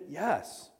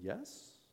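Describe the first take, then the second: First: It sounds confident and sure. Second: It sounds hesitant and unsure.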